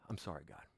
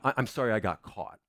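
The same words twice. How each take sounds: First: Sighed, low, hushed apology; sigh, then confess softly and contritely; repentant. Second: Mock apology in an everyday voice; shallow remorse. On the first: Preacher shows repentance as a sinner praying to God, hushed and contrite. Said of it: "Repentance is". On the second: Preacher shows the congregation mere remorse at getting caught, shallow apology. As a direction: toss off an apology with no weight. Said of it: "Rem-, remorse is". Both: Shown as a demonstration.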